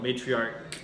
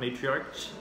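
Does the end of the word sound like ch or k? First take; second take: k; ch. First: The word ends with a k sound. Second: The word ends with a ch sound. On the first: The speaker calls it right. "it should be a K sound" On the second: The speaker calls it wrong. "I heard a couple people say it with kind of a ch ch sound"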